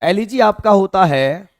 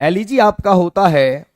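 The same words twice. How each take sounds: Both takes have the same delivery.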